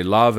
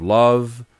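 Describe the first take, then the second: First: "love" with a British vowel. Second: Said in the usual way. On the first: Shown as a demonstration. Coach shows a British change, "love" with British vowel. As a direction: say "love" the generic British way, with an open short vowel. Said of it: "I say love instead of love". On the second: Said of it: "instead of love".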